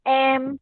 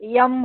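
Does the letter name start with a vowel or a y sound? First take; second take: vowel; y sound. First: It starts directly with the vowel sound. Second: It starts with a y sound before the vowel. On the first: The speaker calls it right. "य नाही वापरायचा, ए वापरायचा" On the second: The speaker calls it wrong. "एम को यम बोलेंगे"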